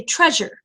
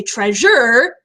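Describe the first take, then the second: First: TREAsure, dropping lightly on the second syllable; unstressed ending. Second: TreaSURE, with the ending pushed up and drawn out; stress on second syllable. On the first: Teacher showing the very natural way, "treasure" with a falling, unstressed end. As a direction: say "treasure" naturally, letting -sure come down. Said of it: "voice kind of naturally comes down". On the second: Teacher demonstrating what you don't say, "treasure" stressed on its last syllable. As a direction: say "treasure" wrongly, leaning hard on -sure. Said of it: "you don't say treasure".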